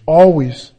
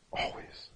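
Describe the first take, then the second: First: Always said out loud and firm; emphatic. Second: Always whispered very softly. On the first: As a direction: proclaim always with force. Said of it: "loud answer". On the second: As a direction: breathe the word always. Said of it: "It's emphatic". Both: Shown as a demonstration.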